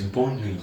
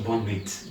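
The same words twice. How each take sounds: First: Bonne nuit with nuit said nwee, T silent; correct nuit. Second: Bonne nuit with the T sounded, nweet; wrong nuit. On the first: Teacher showing learners: bonne nuit, silent T. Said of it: "The T in nuit is silent". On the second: Teacher showing the mistake: bonne nuit with a T. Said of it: "Don't say bonne nuit". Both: Shown as a demonstration.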